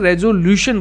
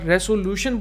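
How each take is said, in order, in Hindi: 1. दूसरा व्यंजन एक भनभनाहट वाली z ध्वनि है। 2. दूसरा व्यंजन एक फुसफुसाहट वाली s ध्वनि है। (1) "वैसे तो इसे रेजोल्यूशन बोला जाता है" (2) "यहां पर रेसोल्यूशन बोला जाता है"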